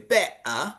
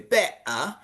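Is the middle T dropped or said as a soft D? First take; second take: dropped; dropped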